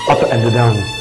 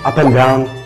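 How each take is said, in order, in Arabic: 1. تُنطق كلمة 'and' كاملة. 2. تُختصر كلمة 'and' إلى 'n'. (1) "ينفعش تقول" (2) "هي إن بس"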